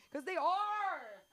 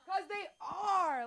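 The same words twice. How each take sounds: First: Slow, high, reluctant "are"; drawn-out admission. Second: High, slow, emphatic "are"; louder admission. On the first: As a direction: stretch out the painful truth. Kids funnier, drawn-out admission. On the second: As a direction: lean hard into "'Cause they are". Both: Acted.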